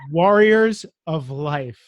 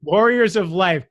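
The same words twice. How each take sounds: First: "Warriors of Life" said very slowly and loudly, every R sounded; clear translation. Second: "Warriors of Life" slow and louder, crisp and proper; proper English. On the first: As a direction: spell out "Warriors of Life" as if translating a thick Boston accent. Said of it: "I have to translate for you". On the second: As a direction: announce "Warriors of Life" in careful King's English. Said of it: "so everybody can hear it in ... the King's English". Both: Shown as a demonstration.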